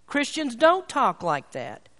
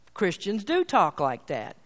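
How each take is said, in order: First: Slow, firm "don't" pressed down in "Christians don't talk like that"; stress on DON'T. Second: Slow, emphatic "do" in "Christians do talk like that"; stress on DO. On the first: Retold or imitated. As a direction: lean hard on "don't" and slow the whole line. Parent's lesson vs. preacher's retort. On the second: Real, not acted. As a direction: land firmly on "do" to contradict. Preacher counters the parents' claim.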